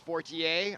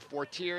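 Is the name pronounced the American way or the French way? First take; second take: French; American. First: The name is said with a French pronunciation. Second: The name is said with an American pronunciation. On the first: "if you're in France, it's Fortier" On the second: "as they call it. If you're in America"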